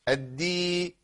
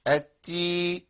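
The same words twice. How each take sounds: First: الدي with a voiced d, no escaping air; correct dal. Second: التي with an airy t in place of d; wrong ta. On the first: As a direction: keep the dal voiced and firm. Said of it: "الفرق بين الاتنين". (دال مجهورة بلا همس) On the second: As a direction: breathe out on the stop. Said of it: "أنا بقول لك الفرق بين الاتنين". (خطأ: تاء بدل الدال مع هواء) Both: Shown as a demonstration.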